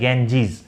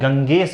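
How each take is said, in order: First: The middle consonant is a j sound. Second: The middle consonant is a hard g sound. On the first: The speaker calls it right. "इसका सही pronunciation है गैंजीज" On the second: The speaker calls it wrong. "किसी को सुना था वो ... इसको गंगेस बोल रहे थे"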